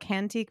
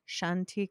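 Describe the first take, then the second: First: The name begins with a hard k sound. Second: The name begins with a soft sh sound. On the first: The speaker calls it wrong. "I always mispronounce her brand" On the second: The speaker calls it right. "I think it's like Shantique"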